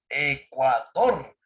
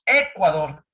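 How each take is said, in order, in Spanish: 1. El acento cae en la última sílaba. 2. El acento cae antes de la última sílaba. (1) "la fuerza de voz está en la última sílaba" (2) "no decimos Ecuador"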